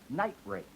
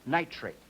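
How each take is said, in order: First: A word-final T is followed by a fully voiced R. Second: The T runs straight into a voiceless R. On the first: It is a phrase of two words. "Nitrate now has a kind of T in it, which is the kind of T that ends a word" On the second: It is a single word. "This kind of transition, or going from T to R, we call normal transition"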